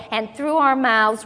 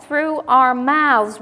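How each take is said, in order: First: Said in the usual way. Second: "Through our mouths" slowed right down and pressed, "our" leaned on with a falling tune; preacher driving "our" home, slowly; emphatic repeat. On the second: Shown as a demonstration. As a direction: lean hard on "our" in "Through our mouths", slow and firm.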